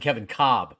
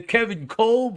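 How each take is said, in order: First: The surname is said without an L sound. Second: The surname is said with an L sound. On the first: The speaker calls it right. "it's not spelled C O B B" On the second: The speaker calls it wrong. "you'll still get the occasional caller"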